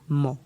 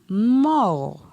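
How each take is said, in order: First: The syllable has a low tone. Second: The syllable has a falling tone. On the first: "ton bas" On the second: "Ton descendant"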